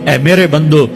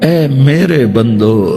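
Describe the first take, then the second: First: It is said in a plain, neutral tone. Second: It is said in a warm, tender tone. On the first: It is a plain address. The speaker calls it wrong. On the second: It is full of love and affection. The speaker calls it right.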